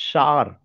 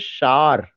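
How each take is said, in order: First: The word is said with one syllable. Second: The word is said with one syllable.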